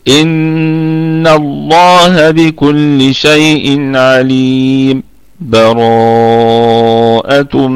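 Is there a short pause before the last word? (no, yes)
yes. A brief pause without breath comes before the last word. "سكتة لطيفة دون اخذ النفس"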